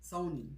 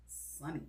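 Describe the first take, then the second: First: "Sony" said SO-nee; corrected pronunciation. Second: "Sonny" said SUH-nee, low and soft; mispronounced Sony. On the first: Host repeats the brand name as corrected, "Sony" with an OH. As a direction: say "Sony" with a long OH. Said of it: "you pronounce it Sony and not Sunny". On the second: Host tries out the name after being corrected, "Sonny" with an UH. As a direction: say "Sonny" with a short UH. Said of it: "Maybe I just don't wanna say". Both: Shown as a demonstration.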